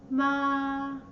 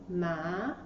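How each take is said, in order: First: It is said with the first tone. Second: It is said with the second tone. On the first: "The first tone" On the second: "The second one"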